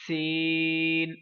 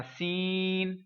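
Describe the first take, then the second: First: سین held long with a clear hiss, not nasal; correct version. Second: سین pushed into the nose; mock the nasal سین; nasal mistaken سین; wrong nasal version. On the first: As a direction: clean drawn-out سین. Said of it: "یہ والی آواز". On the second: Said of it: "اس کو یوں نہیں پڑھنا". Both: Shown as a demonstration.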